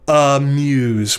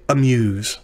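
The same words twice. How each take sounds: First: The first vowel is a full, unhurried vowel. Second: The first vowel is a quick, reduced vowel. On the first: The speaker calls it wrong. "We don't say amuse" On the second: The speaker calls it right. "we say amuse"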